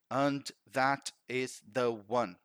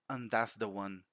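First: Each word is said separately and fully. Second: The words run together with sounds linked. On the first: This is the form written in a grammar book. "você lê lá" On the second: This is how a native speaker says it in real life. "Um nativo, ele acaba ligando alguns sons"

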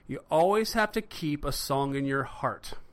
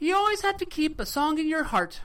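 First: It is said in the speaker's ordinary voice. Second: It is said in an imitated elderly woman's voice.

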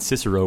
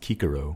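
First: The name begins with a soft S sound. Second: The name begins with a hard K sound. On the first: This is the usual modern pronunciation. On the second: This is how the ancient Romans supposedly said it.

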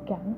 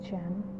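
First: The word starts with a hard G sound. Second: The word starts with a J sound. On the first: The speaker calls it wrong. "we don't say gem" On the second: The speaker calls it right. "we say gem"

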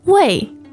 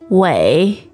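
First: The pitch falls sharply from high. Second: The pitch dips low, then rises.

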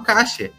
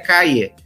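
First: The double L sounds like sh. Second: The double L sounds like a y.

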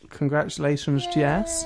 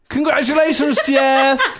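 First: It sounds flat and sad. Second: It sounds lively and excited.

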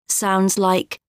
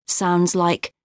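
The two takes are said the same way.

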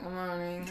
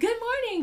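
First: It is said in a grumpy, flat tone. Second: It is said in a cheery, bright tone.

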